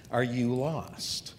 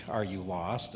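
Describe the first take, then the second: First: Slow, searching question with weight on "are"; drawn-out heartfelt "Are you lost?"; spiritual question. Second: Softer, lower, casual "Are you lost?" rising at the end; offhand everyday "Are you lost?"; directional question. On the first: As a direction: ask "Are you lost?" slowly, about the soul. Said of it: "he's not talking about directionally". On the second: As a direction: ask "Are you lost?" like asking a stranger the way. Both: Shown as a demonstration.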